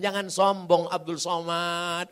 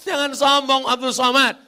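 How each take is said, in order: First: Said in the usual way. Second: Jangan sombong Abdul Somad said louder, higher, punching sombong; loud emphatic repeat. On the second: Shown as a demonstration. Preacher driving the kiai's lesson home, loud and emphatic. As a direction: hammer home sombong the second time.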